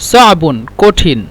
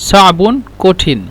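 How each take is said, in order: No difference in how they are said.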